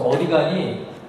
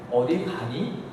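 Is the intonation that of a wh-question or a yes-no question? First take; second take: wh-question; yes-no question. First: It has the intonation and rhythm of a wh-question. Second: It has the intonation and rhythm of a yes-no question. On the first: It asks where the person is going. "이거는 의문사 의문문인데" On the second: It asks whether the person is going somewhere. "그럼 이건 뭐 그냥 예 아니요 의문이죠"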